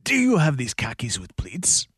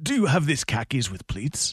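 First: Strained, pushed attempt at a Spanish accent; strained Banderas accent. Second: Antonio Banderas impression. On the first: For the hosts, a strained impression that sounds constipated. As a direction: squeeze out a clumsy Banderas accent. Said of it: "sounds like you're constipated". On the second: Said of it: "There was barely an accent on that".

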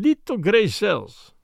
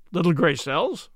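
First: Put-on slow, accented, falling statement of a Belgian sleuth; Belgian detective's pronouncement. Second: "Little grey cells?" rising at the end as a question; puzzled echo. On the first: Belgian detective states his watchword. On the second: A narrator's reading. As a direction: repeat "Little grey cells?" baffled, lifting "cells". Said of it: "said the inspector, staring".

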